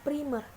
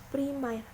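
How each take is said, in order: First: The second vowel is a plain e sound. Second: The second vowel is an ai sound. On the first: The speaker calls it right. "Lafal bakunya yaitu primer" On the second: The speaker calls it wrong. "lafal tidak bakunya yaitu primair"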